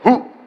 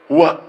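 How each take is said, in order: First: The word ends with a plain u sound. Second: The word ends with a full wa sound. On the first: The speaker calls it right. "Anda akan baca u" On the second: The speaker calls it wrong. "jangan terlampau soleh. Huwa, tidak"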